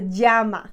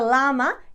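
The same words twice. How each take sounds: First: The double L is said the Spanish way. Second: The double L is said the English way. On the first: The speaker calls it right. "it's a llama" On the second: The speaker calls it wrong. "in English we mispronounce"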